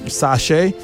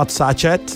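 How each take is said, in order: No difference in how they are said.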